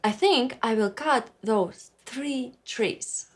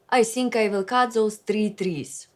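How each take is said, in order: First: The th sounds are English th sounds. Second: The th sounds become s, z and t.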